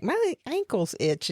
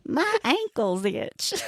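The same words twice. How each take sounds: First: Southern drawl on "My ankles itch"; slow Southern twang; Southern accent. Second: Put-on high, slow Southern accent. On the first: Retold or imitated. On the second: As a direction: mimic a Southern drawl. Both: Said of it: "You said that in a Southern accent and everything".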